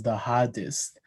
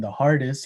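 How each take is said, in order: First: Hardest with no R, New Zealand style; New Zealand R-less hardest; New Zealand accent. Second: Said in the usual way. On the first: Shown as a demonstration. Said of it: "he says". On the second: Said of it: "instead of saying".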